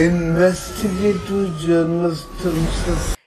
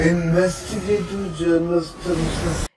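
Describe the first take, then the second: The two takes are said the same way.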